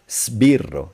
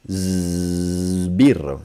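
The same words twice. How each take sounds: First: The s is voiceless, like a hiss. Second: The s is voiced, like a z. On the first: The speaker calls it wrong. "My American students would say" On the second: The speaker calls it right. "z, you engage the voice box first"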